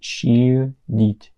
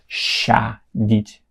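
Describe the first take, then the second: First: The first vowel is a short 'i'-like sound. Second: The first vowel is a clear, full 'a'. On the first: The speaker calls it right. "It's she" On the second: The speaker calls it wrong. "It's not sha-dit because it's not a anymore"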